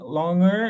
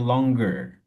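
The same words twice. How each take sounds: First: The middle has no hard G sound. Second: The middle has a hard G sound. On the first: The speaker calls it wrong. "is not the correct pronunciation" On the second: The speaker calls it right. "We sound the G, so you say"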